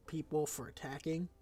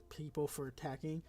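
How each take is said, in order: Both takes have the same delivery.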